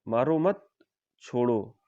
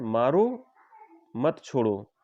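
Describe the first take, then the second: First: The pause comes after the word 'mat'. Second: The pause comes after the word 'maro'.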